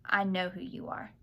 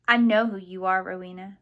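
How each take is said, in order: First: Said in the usual way. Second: Forceful accusation. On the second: A narrator's reading. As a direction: accuse her with sudden force. Accusing her at knifepoint, frightened.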